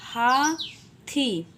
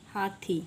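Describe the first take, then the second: First: हा and थी said apart with a pause; syllable by syllable for the class; split into syllables. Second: Said in the usual way. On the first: Shown as a demonstration. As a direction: break हाथी into हा, pause, थी. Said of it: "तो हा जब हमने बोला". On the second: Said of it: "तो हमने क्या बोला?".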